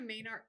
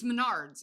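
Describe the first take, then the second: First: Mom's mistaken "Maynard", first syllable like "may"; imitated mispronunciation. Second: "Menards" said as muh-NARDS; insistent correction, "Menards" with stress at the end; corrected pronunciation. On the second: Retold or imitated. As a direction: correct it to "Menards", short first syllable. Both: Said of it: "it's Menards".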